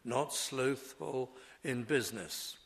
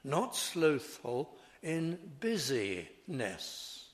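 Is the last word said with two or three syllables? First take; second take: two; three. First: The last word has two syllables, biz-ness. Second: The last word has three syllables, biz-ee-ness. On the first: It refers to commerce. The speaker calls it wrong. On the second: It refers to being busy and diligent. The speaker calls it right.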